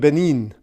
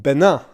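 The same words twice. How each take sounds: First: The name is said the English way. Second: The name is said the French way. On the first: The speaker calls it wrong. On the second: The speaker calls it right.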